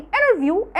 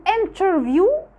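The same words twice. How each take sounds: First: Interview said as "innerview", T swallowed; the easy American way; t dropped. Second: Interview said slowly with a full, clear T; over-pronounce the T in interview; the harder way Americans avoid; careful T. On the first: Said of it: "بتبقى سهلة". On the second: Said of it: "بيفضلوا إن هم ما ينطقوهوش". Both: Shown as a demonstration.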